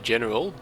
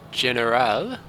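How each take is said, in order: First: It is said like the ordinary English word. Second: It is said with a foreign-style pronunciation. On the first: "I could just say General" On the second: "I suppose that's the correct way to say it"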